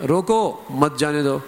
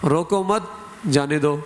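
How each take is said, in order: First: روکو set apart, then مت جانے دو; pause after روکو. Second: روکو مت run together, a break, then جانے دو; pause after مت. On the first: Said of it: "اگر اس نے روکو پر وقف کیا". (روکو پر وقف، پھر مت جانے دو) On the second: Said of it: "اس نادان نے پڑھا". (روکو مت پر وقف، پھر جانے دو) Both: Shown as a demonstration.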